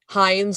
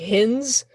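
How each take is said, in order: First: The vowel sounds like 'eye', as in ketchup. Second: The vowel is short, as in 'in'. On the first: The speaker calls it wrong. "people look at it and they think it's like Heinz, like the ketchup" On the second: The speaker calls it right. "where it's actually Hins"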